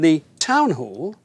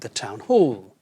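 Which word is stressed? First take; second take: town; hall. First: The stress falls on the first word. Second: The stress falls on the second word. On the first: The speaker calls it wrong. "the stress is put on the first part" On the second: The speaker calls it right. "we put the stress on the second part"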